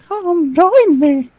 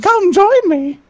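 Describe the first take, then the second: First: Slow, drawn-out eerie invitation; drawn-out mock-sinister Mickey; slow creepy Mickey. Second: Lightly voiced cartoon mouse beckoning; a hint of sinister Mickey; mock-eerie "Come join me"; creepy Mickey invitation. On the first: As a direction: stretch "Come join me" out slowly. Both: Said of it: "I used to do Mickey Mouse impressions".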